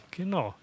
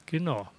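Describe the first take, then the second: No difference in how they are said.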